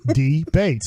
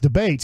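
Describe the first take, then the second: First: The word is said slowly, syllables pulled apart. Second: The word is said quickly, syllables run together. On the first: "There's two syllables" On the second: "But when you say it fast"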